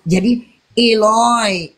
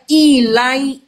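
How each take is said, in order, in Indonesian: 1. Kata pembuka diucapkan sebagai Eloi. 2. Kata pembuka diucapkan sebagai ilai. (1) "Kalau dialeknya dialek Aramaik" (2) "Orang bule yang bacanya ilai"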